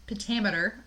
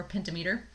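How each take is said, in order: First: Pentameter as pen-TAM-eter; alternative pronunciation. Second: Pentameter as penta-MEE-ter; alternative pronunciation. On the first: Lecturer trying out the term for students, pentameter as pen-TAM-eter. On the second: Lecturer offering students the other version, pentameter as penta-MEE-ter. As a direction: say pentameter like penta plus meter. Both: Shown as a demonstration. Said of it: "pentameter or pentameter".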